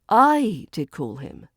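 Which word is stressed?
I. The stress falls on the word I. It was the speaker who made the call. "emphasizing that it was you who called"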